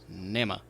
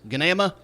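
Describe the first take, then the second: First: The name begins with an N sound. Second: The name begins with a hard G sound. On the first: The speaker calls it right. "it is Nama, and the G is silent" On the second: The speaker calls it wrong. "is it Ganama?"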